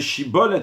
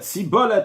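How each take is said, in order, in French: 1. Le mot commence par un son 'sh'. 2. Le mot commence par un son 's'. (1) "à la place de dire shibolet" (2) "il dit sibolet"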